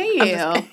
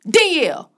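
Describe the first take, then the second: First: The name is said gently. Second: The name is said harshly.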